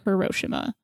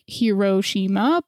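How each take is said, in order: First: The word is said smoothly as one whole. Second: The word is broken into separate syllables. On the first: "the word as a whole is more like" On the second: "if you break down each syllable, that's kind of how you get like"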